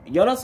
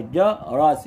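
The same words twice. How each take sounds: First: Said in the usual way. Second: جرس broken as ja, ras; split syllables. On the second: Shown as a demonstration. Teacher finding ra fatha for pupils, split syllables. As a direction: pause after the first syllable of جرس. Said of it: "يبقى".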